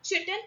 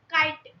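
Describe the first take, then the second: First: Chitin with CH as in chip, "CHIT-in"; mispronounced chitin. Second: Chitin with a hard K, "KAI-tin"; corrected chitin pronunciation. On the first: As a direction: say chitin as "chittin". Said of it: "but it's not chitin". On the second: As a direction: say chitin starting like "kite". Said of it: "but it's not chitin, it's chitin". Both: Shown as a demonstration.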